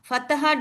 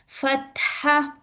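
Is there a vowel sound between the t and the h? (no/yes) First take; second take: yes; no. First: A vowel is sounded after the t. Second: The t has no vowel after it. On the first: The speaker calls it wrong. "don't say fataha" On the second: The speaker calls it right. "You must pronounce with the sakin"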